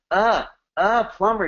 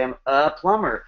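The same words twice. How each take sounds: First: "A, a plumber" with "a" drawn out, high and slow; stress on A. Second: Said in the usual way. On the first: Shown as a demonstration. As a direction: lean hard on the little word "a". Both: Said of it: "you don't emphasize the death word "a" like I just did".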